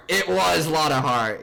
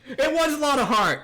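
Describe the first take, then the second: First: Loud, slow, drawn-out confirmation; emphatic recall. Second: Very high, loud burst of recognition; excited recall. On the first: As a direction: repeat it slowly and loudly, pitch settling. Repeats the remembered name, settling. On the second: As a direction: blurt it out high as it comes back. Suddenly remembers the character's name. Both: Real, not acted.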